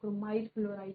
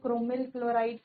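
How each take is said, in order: First: The second syllable of chromyl has an 'ai' diphthong. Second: The second syllable of chromyl has a short 'i'. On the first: "क्रोमाइल chloride कह लो" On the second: "pronunciation आप कर सकते हो, क्रोमिल chloride कह लो"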